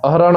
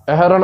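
First: ਅਹਰਣ with plain "a", "ah-ran"; correct vowel. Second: ਅਹਰਣ with fronted vowel, "eh-ran"; altered vowel. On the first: Teacher showing the right word, ਅਹਰਣ as "ah-ran". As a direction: keep the first vowel of ਅਹਰਣ unchanged. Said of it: "ਅਹਰਣ ਉਚਾਰਨ ਕਰਨਾ ਹੈ". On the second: Teacher showing what to avoid, ਅਹਰਣ as "eh-ran". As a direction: turn the opening of ਅਹਰਣ into "eh". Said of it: "ਅਹਰਣ ਉਚਾਰਨ ਨਹੀਂ ਕਰਨਾ". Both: Shown as a demonstration.

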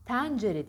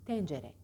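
First: Tencere said as "täncere"; wrong open E. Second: Tencere with a narrow "e"; correct closed E. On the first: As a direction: exaggerate Tencere with a wide "æ". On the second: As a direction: model tencere, lower and closed. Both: Shown as a demonstration. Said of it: "Tencere değil".

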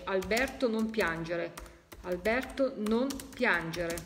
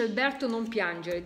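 First: Slowed, each word spelled out; slow deliberate repeat. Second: Said in the usual way. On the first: Shown as a demonstration. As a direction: read the message slowly for listeners. (lento e scandito) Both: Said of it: "sta dicendo".

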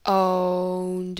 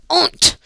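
First: Said in the usual way. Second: Short, high, loud Russian put-on; mock Russian accent. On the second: Gamer joking how to say owned in Russian, mock Russian accent. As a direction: punch out 'Owned' in a fake Russian accent. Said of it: "how to say owned in Russian".

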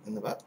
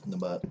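First: "butt" lifted in a rising question tone; puzzled question. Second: Said in the usual way. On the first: Shown as a demonstration. To viewers, repeating his words as a puzzled question.

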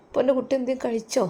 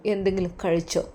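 First: Fond father. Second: Said in the usual way. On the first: Acted. Voicing the sick father.

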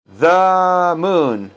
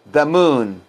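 First: "the moon" with a long held thuh; slow model of "the moon"; drawn-out "the". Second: Said in the usual way. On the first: Shown as a demonstration. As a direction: stretch the uh of "the" before "moon". Teacher stretches the word the.

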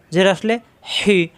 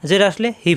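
First: হি with breath squeezed from mid-throat; pressed throat sound. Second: হি with a plain light h, no throat squeeze; wrong articulation demo. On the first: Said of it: "গলার মাঝখানে চাপ দিতে হবে". (গলার মাঝখানে চাপ দিয়ে হি) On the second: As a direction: say হি with an everyday h, as a mistake. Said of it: "তাহলে কিন্তু ভুল হয়ে গেল". (গলায় চাপ ছাড়া হালকা হি) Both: Shown as a demonstration.

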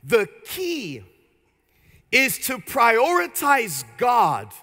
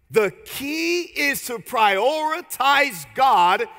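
First: Said in the usual way. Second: Slow, stressed teaching line; emphatic. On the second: Shown as a demonstration. Preacher to congregation, stressing the key point slowly. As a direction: lean hard on key, slowly. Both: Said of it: "I want you to write this down".

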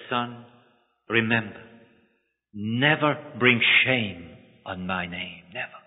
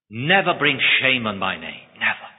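First: Soft, slow, lower; tender solemn reminder. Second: Firm, measured command on NEVER; firm charge. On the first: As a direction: say it slowly like a blessing. Father's parting charge to son. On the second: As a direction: lay down the condition with weight. Lawyer sets his one condition. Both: Acted.

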